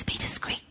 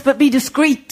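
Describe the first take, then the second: First: "Be discreet" whispered, no voice at all. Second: Said in the usual way. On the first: Retold or imitated. The boss warning her to keep quiet, whispered. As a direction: breathe it like a secret. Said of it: "He whispers it". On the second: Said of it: "He's given me the address".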